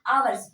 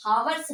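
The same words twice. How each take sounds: First: आवर्स opening on the vowel, with no H; silent H pronunciation. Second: हावर्स with a sounded H at the start; wrong pronunciation with H. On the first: Teacher repeating the correct आवर्स with a silent H for students. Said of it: "आवर्स पढ़ेंगे". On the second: Teacher repeating the wrong हावर्स with an H for students. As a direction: pronounce हावर्स with a breathy H before the vowel. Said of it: "तो इसको हावर्स नहीं पढ़ेंगे". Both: Shown as a demonstration.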